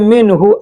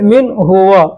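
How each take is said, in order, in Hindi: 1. शब्द जुड़े हुए बोले जाते हैं, छोटे 'hu' पर खत्म होते हैं। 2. शब्द अलग-अलग बोले जाते हैं, लंबे 'huwa' पर खत्म होते हैं। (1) "एक में करके बोलते हैं तो हु बोलना पड़ेगा" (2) "अलग करेंगे तो हुआ बोलना पड़ेगा"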